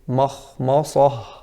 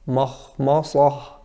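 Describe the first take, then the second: First: The m sounds heavy and thick. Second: The same.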